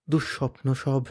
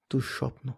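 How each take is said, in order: First: Said in the usual way. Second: Breathy whispered word; unvoiced hush. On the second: A narrator's reading. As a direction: breathe it out like a nightmare memory.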